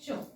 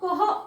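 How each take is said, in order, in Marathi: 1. हा एकच 'ch' आवाज म्हणून उच्चारला जातो. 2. हा 'k' आवाज आणि 'h' मिळून उच्चारला जातो. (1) "CH जो आहे तर याचा साऊंड आहे च" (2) "सो कह असा ह्याचा उच्चार करतात. सो असं नाही स्टुडंट"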